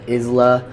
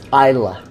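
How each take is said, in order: First: It is said in another non-Scottish way. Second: It is said the way a Scotsman would. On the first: The speaker calls it wrong. "it's not Isla" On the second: The speaker calls it right. "think of how a Scotsman would say it"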